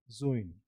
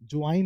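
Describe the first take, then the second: First: "ज्वाइन" as zo-in, round O; OI vowel. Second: "ज्वाइन" as jwine, with W and AI; wrong AI vowel. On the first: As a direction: say "ज्वाइन" lower, O gliding into I. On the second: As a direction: rhyme "ज्वाइन" with wine. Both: Shown as a demonstration. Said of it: "ज्वाइन नहीं".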